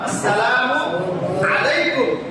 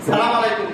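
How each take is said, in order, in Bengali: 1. শুভেচ্ছাটি পূর্ণ 'as-salamu' দিয়ে শুরু হয়। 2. শুভেচ্ছাটি সরাসরি সংক্ষিপ্ত 'salam' দিয়ে শুরু হয়। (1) "আসসালামু আলাইকুম কি বলেন তো?" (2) "সালাম আলাইকুম না"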